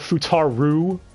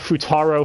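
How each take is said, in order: First: The name ends with a u vowel. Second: The name ends with an o vowel. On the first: The speaker calls it wrong. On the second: The speaker calls it right.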